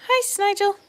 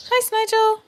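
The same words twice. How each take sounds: First: High cooing "Hi, Snigel." again. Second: High cooing "Hi, Snigel.". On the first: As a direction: coo "Hi, Snigel." a little less high. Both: Real, not acted. Baby talk to the pet.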